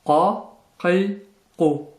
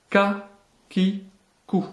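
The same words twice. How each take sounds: First: "Qa, qi, ku" with a heavy k far back in the throat; emphatic Q. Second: "Ka, ki, ku" with a light front K; French K. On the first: Teacher letting learners hear the difference, emphatic back Q. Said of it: "Écoutez la différence". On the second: Teacher letting learners hear the difference, light French K. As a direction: say "Ka, ki, ku" with an ordinary French K. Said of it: "prononcé comme un K français". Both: Shown as a demonstration.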